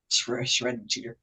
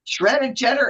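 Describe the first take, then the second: First: "cheddar" slipping into "cheeder", quieter; stumbled mispronunciation. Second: "cheddar" said cleanly as "CHED-er"; corrected pronunciation. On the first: Host fumbling the menu reading, "cheddar" mispronounced as "cheeder". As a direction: trip on "shredded", say "cheddar" as "CHEE-der". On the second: Host restarting the menu reading, "cheddar" corrected to "CHED-er". Corrects the slip just made. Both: Real, not acted.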